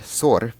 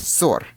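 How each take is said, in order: First: "sor" with a single short S, Russian for litter; short initial S. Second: "sor" with a lengthened S, Russian for quarrel; long initial S. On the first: Teacher contrasting Russian words, "sor" with short S. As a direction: keep the S of "sor" brief. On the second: Teacher contrasting Russian words, "sor" with geminated S. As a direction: hold the S at the start of "sor". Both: Shown as a demonstration. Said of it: "differentiated is through the length of the letter S".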